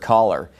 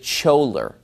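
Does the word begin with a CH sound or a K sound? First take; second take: K sound; CH sound. First: The word begins with a K sound. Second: The word begins with a CH sound. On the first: The speaker calls it right. "I learned the word caller" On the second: The speaker calls it wrong. "He pronounces it choler"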